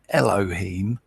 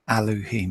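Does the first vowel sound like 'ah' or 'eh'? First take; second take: eh; ah. First: The first vowel is an 'eh' sound. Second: The first vowel is an open 'ah' sound. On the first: The speaker calls it wrong. "not Elohim, like some people pronounce it" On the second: The speaker calls it right. "there's no E, it's an A"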